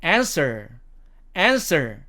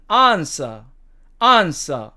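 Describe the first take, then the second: First: American "answer", front a and sounded r; American demo of "answer", r kept; American accent. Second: British "answer", long ah and silent r; British demo of "answer", r dropped; British accent. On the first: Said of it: "미국식 발음으로는". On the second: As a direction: say "ahn-suh" for "answer", British style. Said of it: "영국식 발음으로는". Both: Shown as a demonstration.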